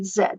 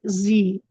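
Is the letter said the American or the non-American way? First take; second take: non-American; American. First: The letter is said the non-American way. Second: The letter is said the American way. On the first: "All other English-speaking countries in the world say Z" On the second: "Only Americans say Z"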